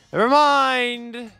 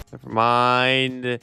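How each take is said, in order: First: Louder and higher, drawn out; loud, slow groan of giving up; exasperated never mind. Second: Said in the usual way. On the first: Real, not acted. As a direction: throw it away in exasperation. Repeats it, exasperated.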